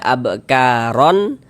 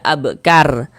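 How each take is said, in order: First: The word ends with an added n sound. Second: The word is cut short, ending on r. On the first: "Jangan dibaca abkaron" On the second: "jangan juga dibaca abkar"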